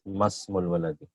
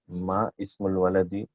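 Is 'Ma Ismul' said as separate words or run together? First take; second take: run together; separate. First: The 'I' sound is dropped and the words run together. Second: The words are said separately with a full 'I' sound. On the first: "it's pronounced as Masmul Waladi" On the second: "The actual one was Ma Ismul Waladi"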